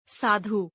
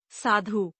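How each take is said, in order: First: Said in the usual way. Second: साधु ending on long oo, "saadhoo"; mispronounced. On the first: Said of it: "शुद्ध". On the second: Shown as a demonstration. Teacher showing a u error, mispronounced with long final oo. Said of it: "अनशुद्ध".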